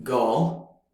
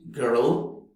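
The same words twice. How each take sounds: First: Put-on girl with no r, British. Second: Put-on girl with a strong American r. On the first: Teacher showing non-rhotic British girl, British accent. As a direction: say girl like a Brit, no r. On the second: Teacher showing rhotic American girl, American accent. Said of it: "in American English". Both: Shown as a demonstration.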